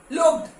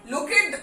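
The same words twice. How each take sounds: First: लुक्ड as one syllable, silent e, ending in t; the right way, लुक्ड; correct pronunciation. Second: लुकेड said with a sounded e, two syllables; wrong spelling-pronunciation. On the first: (सही उच्चारण, लुक्ड) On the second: (गलत उच्चारण, लुकेड) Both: Shown as a demonstration. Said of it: "ऐसा नहीं बोलते".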